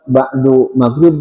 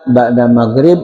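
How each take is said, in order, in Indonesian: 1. Kata pertama berakhir dengan vokal 'u'. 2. Kata pertama berakhir dengan vokal 'a'. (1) "Tidak pernah kita dengar nanti datang ba'du maghrib" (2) "Tapi yang ada ba'da maghrib"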